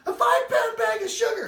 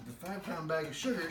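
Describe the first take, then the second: First: High, loud frantic shout; retold shout. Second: Said in the usual way. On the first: Wife shouting the news down the phone. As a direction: blurt it out in panic. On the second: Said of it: "And I said".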